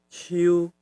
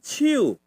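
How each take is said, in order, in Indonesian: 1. Katanya dengan nada halus. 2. Katanya dengan nada lebih tinggi. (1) "Agak halus" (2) "Agak tinggi"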